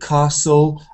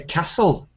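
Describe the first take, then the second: First: It uses the southern English vowel. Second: It uses the northern English vowel. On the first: "this sound R for castle and can't um, is southern English" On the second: "in the north ... they say castle"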